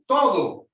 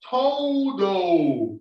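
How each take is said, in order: First: It is said crisply, with Spanish vowels. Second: It is said with rounded, held English vowels. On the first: "like in Spanish, you say todo" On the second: "if you're going to read todo in English, you say todo"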